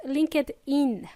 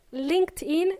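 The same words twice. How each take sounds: First: LinkedIn slowed into three syllables, link-ed-in; mispronunciation demo. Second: LinkedIn as two syllables, linkt-in; correct pronunciation. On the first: Teacher showing listeners what to avoid, LinkedIn said slowly as link-ed-in. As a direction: sound out the ED in LinkedIn as its own syllable. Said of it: "it's pronounced LinkedIn, not LinkedIn". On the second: Teacher showing listeners how it's pronounced, LinkedIn said linkt-in. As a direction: say LinkedIn with no extra vowel, linkt-in. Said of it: "it's pronounced LinkedIn". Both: Shown as a demonstration.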